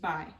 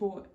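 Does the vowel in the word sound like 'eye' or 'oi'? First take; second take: eye; oi. First: The vowel sounds like 'eye' in bye. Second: The vowel sounds like 'oi' in boy. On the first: "pronounced as the American way" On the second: "would be pronounced with an oi sound"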